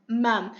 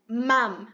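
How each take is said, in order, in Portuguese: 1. A palavra termina com os lábios fechados, como mom em inglês. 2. A palavra termina com os lábios fechados, como mom em inglês.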